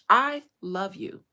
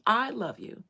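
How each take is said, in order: First: Slow, loud, pressing each word; emphatic I love you. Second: Heartfelt plea, louder; pleading. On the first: Daughter pleading with her father, loud and slow. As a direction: plead it hard so he finally hears. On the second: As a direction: insist on your love. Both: Retold or imitated. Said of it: "That's what I told him".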